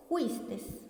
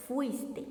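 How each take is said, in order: First: "juistes" as a vulgar slip; wrong form juistes. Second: Said in the usual way. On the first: Shown as a demonstration. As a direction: say "juistes" with a soft aspirated j for fuiste. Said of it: "que es una frase o una expresión incorrecta". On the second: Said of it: "Lo correcto es".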